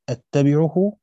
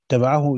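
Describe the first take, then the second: First: أتبعه said with a glottal hamza at the start, louder. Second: اتبعه said with no hamza, opening straight on the vowel, louder; without hamza. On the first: Teacher reading to students, spelling out the hamza form. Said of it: "من غير همزة". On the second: Teacher correcting the reading, no hamza. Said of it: "الاتنين من غير همزة". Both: Shown as a demonstration.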